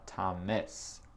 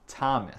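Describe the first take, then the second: First: The stress is on the second syllable. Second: The stress is on the first syllable. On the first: The speaker calls it wrong. "c'est pas Thomas" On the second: The speaker calls it right. "l'accent tonique, c'est dans le premier syllabe. C'est Thomas"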